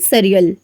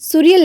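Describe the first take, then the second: First: The first vowel is a short 'uh'. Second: The first vowel sounds like 'oo'. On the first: The speaker calls it right. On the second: The speaker calls it wrong. "सुरियल नहीं"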